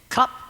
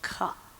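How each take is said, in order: First: The word is said quickly, at normal speed. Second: The word is said slowly and clearly enunciated.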